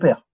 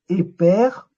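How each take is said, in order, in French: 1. Une voyelle se trouve entre le P et le R. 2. Une voyelle vient avant le P. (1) "on place le E muet entre le P et le R" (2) "On ne va pas dire et père, on va pas mettre le E muet avant"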